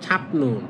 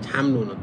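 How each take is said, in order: First: The first syllable ends in a p sound. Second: The first syllable ends in an m sound. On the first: "এটা লিখা হচ্ছে ছাপ নুন" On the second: "ছাম নুন তো ধরা"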